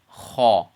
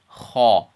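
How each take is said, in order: First: A heavy, open 'aw' vowel follows the sound. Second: A heavy, open 'aw' vowel follows the sound.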